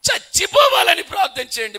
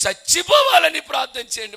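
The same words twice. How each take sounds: First: A high, loud cry of despair from the dying king; anguished shout. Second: A grave, solemn demand, louder and higher. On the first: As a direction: shout the plea as a man begging to die. King begs pastor for death. (మరణం కోసం వేడుకుంటూ బిగ్గరగా అరుపు) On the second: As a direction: lay it down heavy and solemn, like a final request. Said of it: "గంభీరమైన స్వరంతో అన్నాడు". (గంభీరమైన స్వరంతో గట్టిగా) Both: Retold or imitated.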